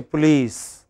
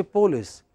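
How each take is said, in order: First: Police as puh-LEECE; English pronunciation. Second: Police as POH-liss; Telugu or Marathi pronunciation. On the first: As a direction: say police with a long stressed EE. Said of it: "I am not telling you". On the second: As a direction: say police with the first syllable stressed. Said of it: "There you should say police". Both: Shown as a demonstration.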